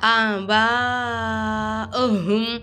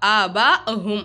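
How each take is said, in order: First: The vowel of ba is held very long. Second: The vowel of ba is kept short. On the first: The speaker calls it right. "நீட்டிக்கணும் ஒரு அஞ்சு அலிஃபுக்கு" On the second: The speaker calls it wrong. "ஆ பா அஹும் அப்படின்னு சொல்லுவோமா?"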